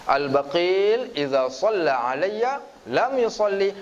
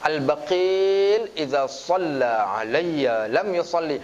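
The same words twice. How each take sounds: First: Slow, measured Arabic recitation; hadith recitation. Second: Slow, chanted Arabic recitation; hadith recitation. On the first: Preacher repeating the hadith for the audience, slow. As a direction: recite it again, deliberate and slow. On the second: Preacher quoting the hadith to the congregation, slow chant. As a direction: recite the hadith slowly and reverently. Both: Acted.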